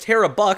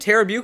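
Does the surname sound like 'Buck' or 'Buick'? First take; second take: Buck; Buick. First: The surname sounds like 'Buck'. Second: The surname sounds like 'Buick'. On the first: The speaker calls it right. "is actually pronounced Tara Buck" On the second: The speaker calls it wrong. "I have been uh, messing that up"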